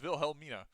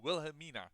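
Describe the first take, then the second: First: The name is said with a Dutch pronunciation. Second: The name is said with an English pronunciation. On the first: The speaker calls it right. "And it's not a hell. It's Wilhelmina" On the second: The speaker calls it wrong. "native English speaker YouTubers... they call, go Wilhelmina. But it's not"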